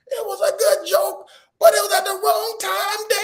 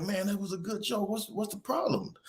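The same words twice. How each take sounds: First: Put-on very high, loud crying-kid wail; bawling daughter. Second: Higher and softer, puzzled appeal; coaxing dad. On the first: Daughter busts out at dad over the prank, mock bawling. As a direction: imitate a child bursting into sobs at dad. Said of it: "Then she busts out". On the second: Retold or imitated. Dad coaxes upset daughter after the prank, soft and puzzled. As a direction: imitate a dad gently asking what's wrong.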